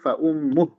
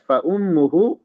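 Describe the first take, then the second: First: The phrase ends on a bare h sound. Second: The final hu vowel is held for two beats. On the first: The reader stops after this word. "kalau berhenti" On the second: The reader continues into the next word. "kalau disambung hu-nya dua harokat"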